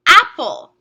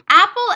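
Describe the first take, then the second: First: Announced example word. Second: Said in the usual way. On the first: Shown as a demonstration. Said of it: "Our word is". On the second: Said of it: "Apple ends with an L E".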